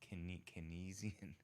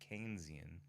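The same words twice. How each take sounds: First: The first syllable differs from the name Keynes. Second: The first syllable sounds like the name Keynes. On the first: The speaker calls it wrong. "Some people mispronounce it as uh" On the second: The speaker calls it right. "It's Keynes"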